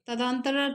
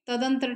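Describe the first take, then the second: First: तदांतर with long daan; wrong form तदांतर. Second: तदंतर with short dan; correct form तदंतर. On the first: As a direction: stretch the middle a of तदांतर. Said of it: "तदांतर ठीक नहीं है". (तदांतर, दां लंबा बोलकर) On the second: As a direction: keep the middle vowel of तदंतर short. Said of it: "तदंतर ठीक हो जाएगा". (तदंतर, दं छोटा बोलकर) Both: Shown as a demonstration.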